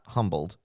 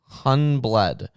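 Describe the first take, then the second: First: The word is said with an m before b. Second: The word is said with an n before b. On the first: "not humbled" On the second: "H U N B L E D"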